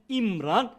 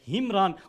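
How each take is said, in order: First: The name begins directly with a vowel. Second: The name begins with an h sound. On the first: The speaker calls it right. "the right way to pronounce it" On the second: The speaker calls it wrong. "or Imran rather"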